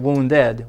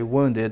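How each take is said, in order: First: The ending is pronounced like 'ed'. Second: The ending is pronounced like 'id'. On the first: The speaker calls it wrong. "Even though it's ed, we don't say wounded" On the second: The speaker calls it right. "we say wounded"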